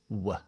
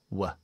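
First: The vowel is a short weak schwa. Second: The vowel is a short weak schwa.

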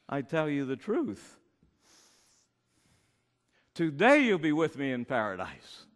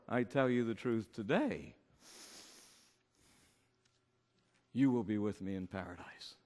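First: The pause comes before the word today. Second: The pause comes after the word today.

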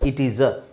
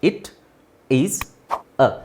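First: The words run together as one word. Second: Each word is said separately with gaps between. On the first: The speaker calls it right. "Gap ಕೊಡೋದೇ ಅವಶ್ಯಕತೆ ಇಲ್ವಲ್ಲ" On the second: The speaker calls it wrong. "ಒಂದೊಂದು ಸ್ವರ ಹೇಳಬೇಕಾದ್ರೆ ನಾವು ಉಸಿರು ತಗೊಂಡೇ ಹೇಳಬೇಕಾಗತ್ತೆ"

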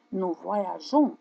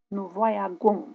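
First: The consonant before the ending is a soft zh. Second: The consonant before the ending is a hard g. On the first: The speaker calls it right. "on doit intercaler un E pour pouvoir prononcer J" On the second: The speaker calls it wrong. "Si on oublie le E, on prononce nous voyagons. Et ce n'est pas correct"

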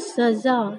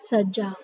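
First: The middle consonant is a z sound. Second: The middle consonant is a doubled j sound. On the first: The speaker calls it right. "तो इसको हम पढ़ेंगे सजा" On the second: The speaker calls it wrong. "ना कि सज्जा"

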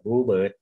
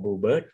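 First: The stress falls on blue. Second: The stress falls on bird. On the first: A particular species of bird. "ก็จะเป็นชนิดของนก" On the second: Any bird that is blue. "เป็นนกตัวไหนก็ตามที่มีสีน้ำเงินนะครับ"

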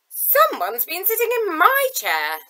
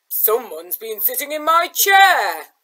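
First: It is said in a plain, ungrowled voice. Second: It is said in a deep growling voice.

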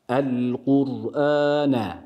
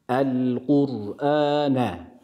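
Both takes have the same delivery.

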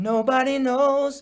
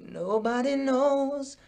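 First: It starts with a plain, clear voice. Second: It starts with a creaky voice.

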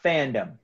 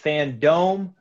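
First: The last syllable is said like 'dum'. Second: The last syllable is said like 'dome'. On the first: The speaker calls it wrong. "not fandom" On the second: The speaker calls it right. "it's Fandome"

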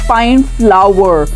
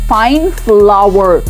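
No difference in how they are said.

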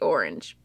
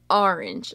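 First: The first vowel sounds like 'or'. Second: The first vowel sounds like 'ah'. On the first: This is the usual way to say it. The speaker calls it right. "I try my best to say orange" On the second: This is how the speaker's family says it. The speaker calls it wrong. "like with an A"

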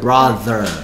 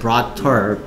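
First: The middle consonant is a th sound. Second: The middle consonant is a t sound. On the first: The speaker calls it right. "혀를 물어야 돼" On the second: The speaker calls it wrong. "brother이 아니고"

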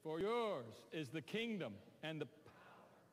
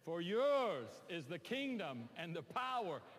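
First: It is read in a mild, subdued way. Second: It is read forcefully with more authority.

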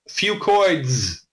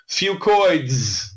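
No difference in how they are said.

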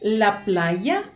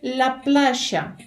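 First: It is said with a Spain Spanish accent. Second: It is said with an Argentine Spanish accent. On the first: "Вони не кажуть «la playa»" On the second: "в Аргентині, вони по-іншому вимовляють це слово"

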